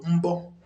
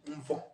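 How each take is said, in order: First: The middle consonant is a b sound. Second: The middle consonant is a v sound. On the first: This is the standard central dialect form. "So Central Igbo" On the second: This is the regional dialect form. "Olumba, Olundi"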